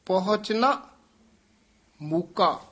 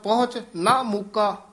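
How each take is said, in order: First: The pause comes after 'pahunchna'. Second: The pause comes after 'pahunch'. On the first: The speaker calls it right. "ये ठमक जरूर लानी है" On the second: The speaker calls it wrong. "जे कहता पहुंच ना मुका तो अर्थ दा बहुत गलत अर्थ हो जाना है"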